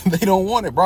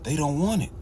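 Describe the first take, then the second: First: Louder, emphatic restatement; louder repeat. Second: Said in the usual way. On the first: Real, not acted. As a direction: hammer it home louder.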